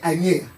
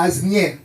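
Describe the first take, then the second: First: The S in the middle is silent. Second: The S in the middle is pronounced. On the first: "le français avait caché ça pour la prononciation" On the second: "il a prononcé le S"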